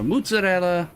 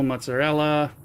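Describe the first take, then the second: First: It is said in a New Jersey Italian-American way. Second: It is said in a standard American way.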